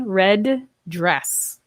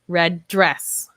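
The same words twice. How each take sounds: First: Both D sounds are pronounced separately. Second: The words link with only one D sound. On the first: The speaker calls it wrong. "So I would not say red dress" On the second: The speaker calls it right. "Just like that time"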